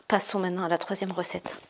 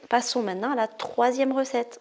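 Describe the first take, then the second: First: Said in the usual way. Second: Passe-Partout. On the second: Acted. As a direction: announce it like a game-show character, pitched up. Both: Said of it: "On dirait Passe-Partout dans".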